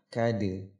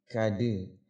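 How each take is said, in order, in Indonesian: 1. Huruf d memantul dengan gema 'e' yang ringan. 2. Huruf d memantul dengan gema 'e' yang ringan.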